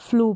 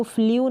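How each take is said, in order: First: फ्लू said as a clean long oo, no glide; correct reading. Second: फ्लू said as fliu with a glide before the u; wrong reading. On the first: Teacher giving students the correct floo reading. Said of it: "फ्लू पढ़ेंगे". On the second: Teacher showing students the wrong fliu reading. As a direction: read फ्लू wrongly as fli-oo. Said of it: "अब इसको फ्लू नहीं पढ़ेंगे". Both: Shown as a demonstration.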